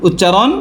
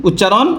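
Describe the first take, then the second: Both takes have the same delivery.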